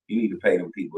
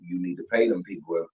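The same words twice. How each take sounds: First: It is said in a put-on character voice. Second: It is said in the speaker's normal voice.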